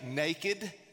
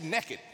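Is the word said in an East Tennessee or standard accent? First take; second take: standard; East Tennessee. First: It is said in a standard American accent. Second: It is said in an East Tennessee accent. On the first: "most people would say naked" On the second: "He said it the proper way, the way we say it in East Tennessee"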